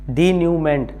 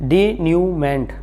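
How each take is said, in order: First: The word ends with a clear t sound. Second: The word ends with a clear t sound.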